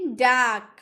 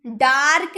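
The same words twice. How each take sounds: First: डार्क said as daak, no r; डार्क with a long aa and no r; silent r. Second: डार्क with a clear r, marked wrong; डार्क spoken with the r, the way not to say it; wrong r sounded. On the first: (डार्क बिना र के, डाक जैसा) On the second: (डार्क में र बोलकर, गलत उच्चारण) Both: Shown as a demonstration. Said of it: "डार्क नहीं".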